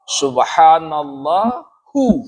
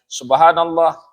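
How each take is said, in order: First: The word ends with an extra hu syllable. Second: The word stops short without a final vowel. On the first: The phrase continues without stopping. "Kalau dia dibaca panjang, hu dibaca" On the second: The reader stops after the phrase. "kalau diberhentikan, dia berhenti"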